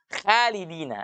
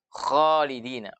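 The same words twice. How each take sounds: First: The first sound is light and thin. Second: The first sound is heavy and thick. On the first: The speaker calls it wrong. "itu tipis itu kalau seperti itu" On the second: The speaker calls it right. "harus khalidina"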